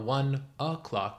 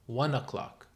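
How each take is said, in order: First: The n is separated from o'clock. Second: The n is linked into o'clock. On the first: The speaker calls it wrong. "So it's not one o'clock" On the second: The speaker calls it right. "the n connects with clock"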